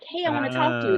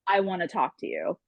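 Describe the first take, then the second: First: It is said in a friendly, nice tone. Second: It is said in an unfriendly, cold tone.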